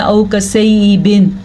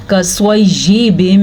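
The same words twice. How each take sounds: First: औ कसैयिबिन with y turned into hamza; common wrong reading. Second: कसवैयिबिम with a clear doubled y, hummed m; clear y reading. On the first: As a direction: catch the throat in place of y in औ कसैयिबिन. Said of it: "वो हमज़ा बन जाता है". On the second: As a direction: press the y in कसवैयिबिम, drawing out the end. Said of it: "या को clear करके पढ़ना है". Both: Shown as a demonstration.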